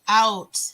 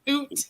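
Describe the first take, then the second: First: It is said with an ordinary 'out' vowel. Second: It is said as a stereotyped Canadian 'oot'.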